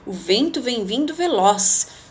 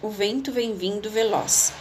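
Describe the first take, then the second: First: It is said as an emotional, surprised exclamation. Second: It is said as a calm, plain statement.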